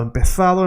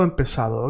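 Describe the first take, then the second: First: Higher "empezado", Z said as TH; Spain pronunciation. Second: "empezado" with an S, dropping in pitch; Latin American pronunciation. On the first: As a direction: lift "empezado" and give it a Castilian TH. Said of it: "Spain, empezado". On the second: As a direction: close the contrast with "empezado" through S. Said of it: "Latin America, empezado". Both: Shown as a demonstration.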